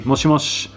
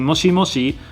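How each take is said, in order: First: The word ends on a consonant, final vowel dropped. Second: The word ends with a full final vowel. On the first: "sometimes you say moshimosh" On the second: "you don't necessarily say moshimoshi"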